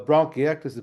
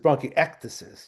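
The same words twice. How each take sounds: First: The stress is not on the 'ec' syllable. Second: The stress is on the 'ec' syllable.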